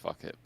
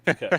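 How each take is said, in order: First: It sounds like the phrase 'fuck it'. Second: It does not sound like the phrase 'fuck it'. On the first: The speaker calls it wrong. "People think it's fuck it" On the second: The speaker calls it right. "it's actually"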